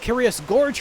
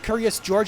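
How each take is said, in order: First: The name sounds like the word gorge. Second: The name sounds like the name George. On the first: The speaker calls it right. "it's going to be Curious Gorge from now" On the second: The speaker calls it wrong. "The only reason I called him Curious George"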